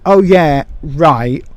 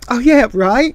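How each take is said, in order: First: It is said in a sarcastic, dismissive tone. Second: It is said in a sincere, agreeing tone. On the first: The listener does not believe or care. "they might take it as, oh yeah, right, whatever" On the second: The listener genuinely agrees. "I agree with you"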